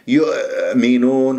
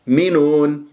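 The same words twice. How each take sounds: First: The hamza comes out as several repeated catches. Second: The hamza is a single clean glottal stop. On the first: The speaker calls it wrong. "أو يطلع همزات عديدة يؤمنون وهذا أيضا خطأ" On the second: The speaker calls it right. "نفكك الكلمة إلى مقطعين، المقطع الأول ينتهي بالهمزة"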